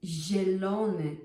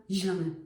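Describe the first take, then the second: First: "zielony" with a soft palatal zi and full vowels; correct soft zi. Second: "zielony" said fast and clipped with a hard zi, as the wrong way. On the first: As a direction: soften the zi in "zielony". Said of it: "It's zielony". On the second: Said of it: "It's not zielony". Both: Shown as a demonstration.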